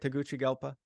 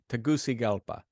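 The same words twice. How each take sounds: First: The 'ci' syllable starts with a 'ch' sound. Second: The 'ci' syllable starts without a 'ch' sound. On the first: The speaker calls it wrong. "Did I pronounce that right?" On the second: The speaker calls it right. "so it's not a ch, it's a c"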